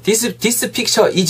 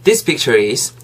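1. 단어들이 따로 발음돼요. r 음은 없어요. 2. r 음이 있는 picture가 바로 is로 이어져요. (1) "이렇게만 발음 안 하셨으면 좋겠어요" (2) "is까지 한 번에 가면은 this picture is 이렇게 하시면 되겠죠"

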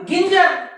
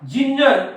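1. हा शब्द कडक 'g' आवाजाने सुरू होतो. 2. हा शब्द 'j' आवाजाने सुरू होतो. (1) "आता बाकीचे मुलं याला काय वाचतील" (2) "जिंजर म्हणून या जी नंतर आय आला म्हणून ज उच्चार झाला"

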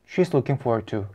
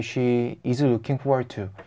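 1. 단어들이 서로 이어져서 매끄럽게 흘러가요. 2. 끊기는 느낌이에요. 'she' 뒤에서 끊어져요. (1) "이 부분을 먼저 이어보는 걸 연습한다" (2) "다시 한번 어눌하게 해볼게요. / 저는 she is가 끊겼거든요"

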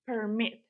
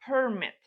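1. Наголос на другому складі. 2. Наголос на першому складі. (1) "Якщо це дієслово, ми наголошуємо другий склад" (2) "Якщо це іменник, ми наголошуємо перший склад"

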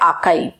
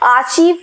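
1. इस शब्द का अंत 'kive' जैसी आवाज़ से होता है। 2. इस शब्द का अंत 'cheev' जैसी आवाज़ से होता है। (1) "वो है आर्काइव" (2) "आर्चीव फोल्डर में नहीं गई है"

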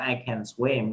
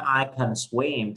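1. Từ 'can' có nguyên âm đầy đủ, rõ ràng. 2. Từ 'can' có nguyên âm ngắn, yếu. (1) "thay vì nói I can swim" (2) "Mình nói I can swim"

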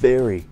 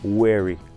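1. Начинается с V: нижняя губа касается верхних зубов. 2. Начинается с округлённого звука W. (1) "прикусывайте нижнюю губу верхними зубами, вот так" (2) "нельзя говорить таким образом"

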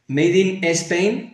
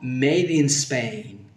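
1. Un sonido vocálico extra va antes de la s. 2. La s empieza sin vocal delante.

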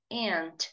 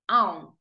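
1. A palavra é dita com sotaque americano. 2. A palavra é dita com sotaque britânico. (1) "E tia no inglês americano é aunt" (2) "Tia no inglês britânico é aunt"

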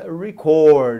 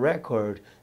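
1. A tônica está na segunda sílaba. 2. A tônica está na primeira sílaba. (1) "Se é o verbo" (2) "Se é o substantivo"

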